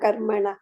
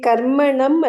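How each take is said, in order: First: The word ends with a breathy h sound. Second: The word ends with an m sound. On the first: The speaker calls it right. "ಕರ್ಮಣಃ ಇರೋದು" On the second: The speaker calls it wrong. "ಕರ್ಮಣಂ ಅಲ್ಲ"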